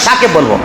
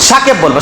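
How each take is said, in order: Both takes have the same delivery.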